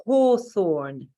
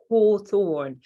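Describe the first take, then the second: First: Hawthorn in a crisp British accent, no R, the t-h spoken. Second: Hawthorn said again in British accent, louder, falling at the end. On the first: Teacher showing how the English say Hawthorn, in British accent. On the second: Teacher repeating hawthorn for the class, in British accent. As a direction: repeat hawthorn the English way, firmly. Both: Shown as a demonstration. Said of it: "with my lovely British accent".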